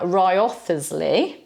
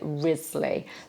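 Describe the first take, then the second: First: Every written syllable is sounded out. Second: It is said in a shortened form. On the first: The speaker calls it wrong. "We don't have Wriothesley" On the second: The speaker calls it right. "I tend to say Risley"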